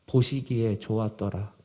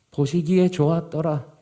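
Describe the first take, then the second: First: Said in the usual way. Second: Stronger, raised delivery of 보시기에 좋았더라; emphatic repeat. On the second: Retold or imitated. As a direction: repeat the verse firmly, leaning on 보시기에. Scripture verse repeated for emphasis.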